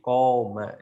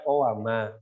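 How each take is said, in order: First: A long vowel replaces the w sound. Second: A w sound is heard between the two vowels. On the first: This is the lightened form used in speech. "diringankan dengan dirubah jadi alif" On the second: This is the original root form of the word. "asli katanya sebenarnya apa? Kowama"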